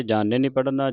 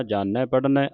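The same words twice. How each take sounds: First: ਜਾਣੈ with a closed final "ay"; wrong ending demo. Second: ਜਾਣੈ with an open final "ai"; correct open ending. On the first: Teacher showing what not to read, ਜਾਣੈ ending "ay". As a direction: say ਜਾਣੈ as "jaa-nay". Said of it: "ਜਾਣੈ ਨਹੀਂ ਪੜ੍ਹਨਾ". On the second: Teacher showing the right reading, ਜਾਣੈ ending in open "ai". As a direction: say ਜਾਣੈ as "jaa-neh". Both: Shown as a demonstration.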